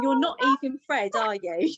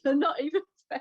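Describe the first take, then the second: First: Louder and higher, disbelieving "You're not even Fred"; incredulous. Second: Fast, higher, laughing and crying through "You're not even Fred"; laughing through tears. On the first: Retold or imitated. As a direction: ask the box in stunned disbelief. Talking to the wrong ashes. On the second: Real, not acted. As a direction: repeat it quickly as the laugh-cry takes over. Repeats while breaking down.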